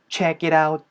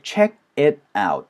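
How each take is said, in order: First: The words run together with a soft T. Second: Each word is said separately and stiffly. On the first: The speaker calls it right. "이런 식으로 연결이 되는 소리" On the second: The speaker calls it wrong. "이렇게 딱딱하게 끊어 읽지 않고요"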